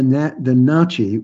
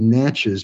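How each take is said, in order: First: The name is said in the nation's own pronunciation. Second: The name is said in the English pronunciation. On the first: This is what the people call themselves. "their name for their own nation is the Na'chi Nation" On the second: This is the name used by English speakers. "or you pronounce it in English, it would be Natchez"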